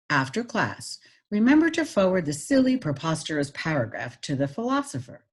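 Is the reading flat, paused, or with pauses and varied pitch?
varied pitch. It is read with pauses and clearly varied pitch. "Now I'm going to add pitch"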